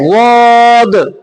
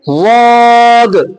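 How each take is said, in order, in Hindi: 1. शब्द की शुरुआत भारी d जैसी आवाज़ से होती है। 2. शब्द की शुरुआत भारी d जैसी आवाज़ से होती है।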